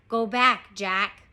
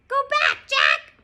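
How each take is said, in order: First: It is said in a normal human voice. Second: It is said in a squawky parrot voice.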